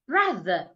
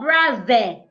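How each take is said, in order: First: The final syllable is weak and reduced. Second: The final syllable ends open and full. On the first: The speaker calls it right. "Brother, the, the, not there" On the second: The speaker calls it wrong. "It's not brother. This is wrong"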